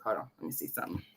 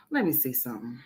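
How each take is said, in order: First: Unvoiced whisper to herself; whispered aside. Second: Said in the usual way. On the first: Real, not acted. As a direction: whisper it while searching the phone. Checking her phone, muttering to herself.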